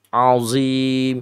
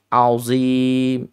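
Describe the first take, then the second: No difference in how they are said.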